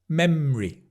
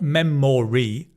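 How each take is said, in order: First: It is said with two syllables, m-r together. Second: It is said with three full syllables. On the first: The speaker calls it right. "Mr, mr, memory" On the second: The speaker calls it wrong. "Not memory"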